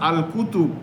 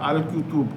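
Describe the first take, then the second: The two takes are said the same way.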